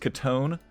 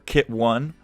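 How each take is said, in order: First: The name begins with a short 'kuh' sound. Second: The name is said as 'kit' plus 'one'. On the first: This is the name's proper form. The speaker calls it right. "Her name's actually uh, Katone" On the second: This is a joking form of the name. The speaker calls it wrong. "Don't don't pronounce it Kit One unless you're you're memeing"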